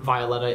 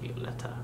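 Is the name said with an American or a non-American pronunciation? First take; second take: American; non-American. First: The name is said with an American pronunciation. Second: The name is said with a non-American pronunciation. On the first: This is how the speaker naturally says it. "because I'm American, Violeta is okay" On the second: This is how the singers say it. "but it's Violeta? Violeta"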